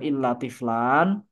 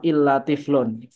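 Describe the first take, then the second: First: The last word ends with an 'an' sound. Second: The last word ends with an 'un' sound. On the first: The word is read in the accusative as an exception. "harus dibaca nasab" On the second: The word follows the case of the preceding noun. "boleh juga dibaca badal mengikuti mustasna minhunya"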